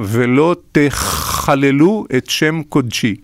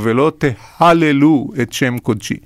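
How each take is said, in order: First: The verb has a throaty ch sound. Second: The verb has a plain h sound. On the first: Do not profane my holy name. The speaker calls it right. "כתוב באיזשהו מקום" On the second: Do not praise my holy name. The speaker calls it wrong. "אז הם יגידו"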